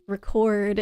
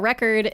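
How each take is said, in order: First: The stress is on the second syllable. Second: The stress is on the first syllable.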